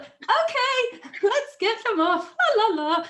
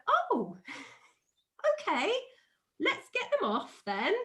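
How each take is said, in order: First: Very high, loud, hammed-up singsong; forced cheerful panic. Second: Feigned super chilled. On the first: Mum hiding panic from stung child, hammed-up shrieky cheer. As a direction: cover alarm with loud, high mock cheer. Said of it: "I was like". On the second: Retold or imitated. Mum coaxing wasp-covered child, putting on chilled cheer. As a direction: play it breezy so the child won't react. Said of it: "trying to just be really super chilled about it".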